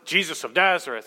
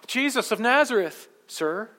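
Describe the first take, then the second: First: It is said boldly and demandingly. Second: It is said timidly and respectfully.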